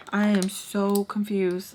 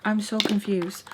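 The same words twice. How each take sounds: First: "I am so confused" spaced out, "am" stressed; slow right down, leaning on "am" and "so"; slow emphatic repeat. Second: Said in the usual way. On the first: Retold or imitated. Storyteller insisting she was baffled, "am" stressed slowly. Second take slowed for emphasis.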